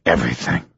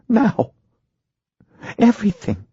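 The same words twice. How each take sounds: First: Low-pitched husband giving in; husband agreeing. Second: High-pitched wife pressing her husband; insistent wife. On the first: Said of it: "he agreed". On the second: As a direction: insist word by word in the wife's high voice. Wife insists on hearing all. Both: A narrator's reading.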